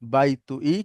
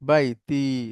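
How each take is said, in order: First: It is said as three syllables, bai-tu-i. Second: It is said as two syllables, bai-ti. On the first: The speaker calls it wrong. "কিন্তু এভাবে ব্যবহার হয় না" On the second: The speaker calls it right. "ব্যবহার হয় বাইতি, এভাবে বাইতি"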